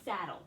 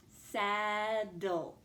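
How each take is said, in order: First: Said in the usual way. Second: "Saddle" drawn out as saaa-dul; stretched out. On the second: Shown as a demonstration. Teacher lets pupils hear the syllables, "Saddle" stretched out. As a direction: hold the vowel of "Saddle", then dul. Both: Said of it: "Let's listen to that word".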